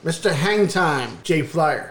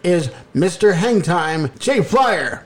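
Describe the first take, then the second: First: It is said flatly, with little energy. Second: It is said with lively, announcer-like energy.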